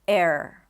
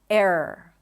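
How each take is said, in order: The two takes are said the same way.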